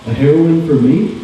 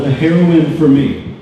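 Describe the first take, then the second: First: The voice rises at the end like a question. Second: The voice falls at the end like a statement. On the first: The speaker calls it right. "with a question mark. That's better" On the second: The speaker calls it wrong. "I didn't say that right"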